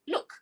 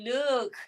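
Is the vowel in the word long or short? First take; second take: short; long. First: The vowel is kept short. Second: The vowel is drawn out long. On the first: The speaker calls it right. "Say short" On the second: The speaker calls it wrong. "Don't say look. Okay. Don't say long"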